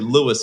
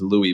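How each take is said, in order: First: The name ends with an s sound. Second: The name ends with an ee sound. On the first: The name is treated as Portuguese. The speaker calls it right. "it's actually Lewis in the end because he's Portuguese and not French" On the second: The name is treated as French. The speaker calls it wrong. "everybody says Louis because they expect it to be"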